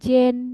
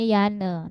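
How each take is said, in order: First: The name begins with a J sound. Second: The name begins with a Y sound. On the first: The speaker calls it wrong. "tapi dibacanya bukan Jen ya" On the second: The speaker calls it right. "namanya Yane"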